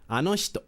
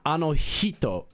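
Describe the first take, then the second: First: The h hisses, sounding close to sh. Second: The h is a strong, pushed breath. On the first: The speaker calls it right. "more close to she than it is to he" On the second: The speaker calls it wrong. "it's not ano hito"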